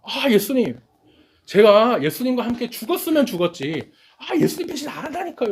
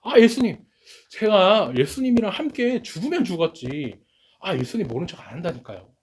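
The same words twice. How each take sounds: First: Pitched much higher, a hammed-up pleading insistence; forceful disciple vow. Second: A raised, emphatic vow, retold by the preacher; forceful insistence. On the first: Preacher acting the disciples swearing loyalty to Jesus, high, hammed-up insistence. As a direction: play a disciple swearing he'll never betray, high and straining. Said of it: "이렇게 강하게 얘기한". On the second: Preacher voicing Peter vowing to Jesus, forcefully insisting. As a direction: push the promise out hard, half-acted. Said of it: "야, 강하게 얘기를 합니다".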